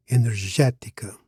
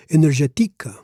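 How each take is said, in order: First: "energética" stressed on GÉ; third-last syllable stress. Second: "energética" with the stress moved to TI; wrong stress demo. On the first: Teacher shows the accented e in "energética", stressed on GÉ. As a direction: say e-ner-GÉ-ti-ca for "energética". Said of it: "put an accent on the e". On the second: Teacher shows "energética" without its accent, stressed on TI. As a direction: say e-ner-ge-TI-ca for "energética". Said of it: "Otherwise, we would read". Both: Shown as a demonstration.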